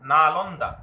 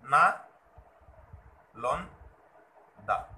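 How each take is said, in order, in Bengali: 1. শব্দটি কোনো বিরতি ছাড়াই সাবলীলভাবে বলা হয়। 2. শব্দটি স্বরাংশের মাঝে বিরতি দিয়ে ভাগ করে বলা হয়।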